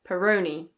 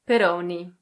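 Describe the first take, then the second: First: It is said in a British English accent. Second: It is said with an Italian pronunciation. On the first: "In British English, it's Peroni" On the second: "In Italian, this is pronounced Peroni"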